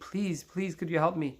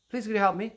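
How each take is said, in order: First: It sounds earnest and pleading, like begging. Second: It sounds casual, without real need.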